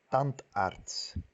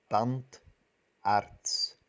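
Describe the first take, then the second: First: Said in the usual way. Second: Tandarts said slowly as tand, arts with a break at the word boundary; syllable by syllable; split into syllables. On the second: Shown as a demonstration. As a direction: pause between tand and arts. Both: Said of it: "Partimos la palabra compuesta".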